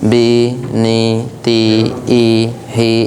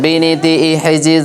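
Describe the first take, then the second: First: The syllables are said slowly with breaks between them. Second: The syllables are said quickly, run together without breaks. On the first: The speaker calls it wrong. "থেমে থেমে, দম নিয়ে নিয়ে বলছি" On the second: The speaker calls it right. "এইভাবে দ্রুত পড়বো"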